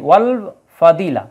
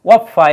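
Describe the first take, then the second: First: The L is clearly pronounced before F. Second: The L is dropped, going straight to F. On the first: The speaker calls it right. "আলিফ লামের উচ্চারণ হয়েছে ওয়াল ফাদিলা" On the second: The speaker calls it wrong. "ওয়াফা এইভাবে হয় নাই"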